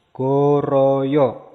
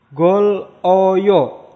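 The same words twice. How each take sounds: First: Goroyo said joined, the l turned into r; linked pronunciation. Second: Gol oyo said split apart, each part loud; separate syllables. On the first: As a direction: run it together as goroyo. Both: Shown as a demonstration. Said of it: "Maka disambung jadi".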